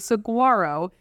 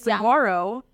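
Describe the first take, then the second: First: The G in the word is clearly sounded. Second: The G in the word is silent. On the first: The speaker calls it wrong. "Do not say saguaro" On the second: The speaker calls it right. "The G is silent"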